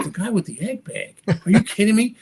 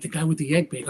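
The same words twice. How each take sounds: First: Higher, disbelieving echo as a question; incredulous. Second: Said in the usual way. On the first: Retold or imitated. Magician reacting to friend pointing out his idol, incredulous. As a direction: repeat it back in raised-pitch disbelief.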